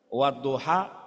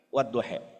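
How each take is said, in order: First: The word ends with an open 'ah' vowel. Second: The word ends with an 'eh' vowel. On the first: "kalau cuman beda lahjah artinya sama" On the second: "kalau cuman beda lahjah artinya sama"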